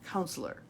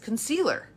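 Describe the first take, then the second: First: The word is pronounced like counselor. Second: The word is pronounced like concealer. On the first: The speaker calls it right. "the way it's really said is counselor" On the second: The speaker calls it wrong. "it processed as concealer. And so I said it wrong"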